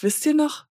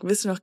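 First: It is said in a wistful, drawn-out tone. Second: It is said in a light, casual tone. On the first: The event feels long ago. The speaker calls it right. "Du musst so reden" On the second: The event feels recent. The speaker calls it wrong. "Sag nicht so"

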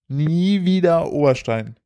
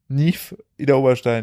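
First: The words are split as 'nie wieder'. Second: The words are split as 'nief Ida'. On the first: It means never again Oberstein. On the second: It hides a second, punning reading.

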